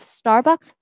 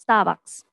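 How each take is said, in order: First: The R sound is clearly pronounced. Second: The R sound becomes an ah sound. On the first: "Instead of" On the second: "the R is kind of an ah sound"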